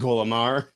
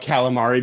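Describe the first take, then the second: First: It is said in a New York Italian accent. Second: It is said with a plain, standard pronunciation.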